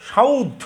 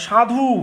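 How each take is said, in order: First: সাউদ with the u moved before the d; dialect form. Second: সাধু said in full, standard form; standard sadhu. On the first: Teacher showing the sound change, সাউদ said as dialect. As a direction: say সাউদ, the u slipping ahead. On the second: Teacher showing students the standard form, সাধু said clearly. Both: Shown as a demonstration. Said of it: "এইখানে একটা জিনিস দেখেন".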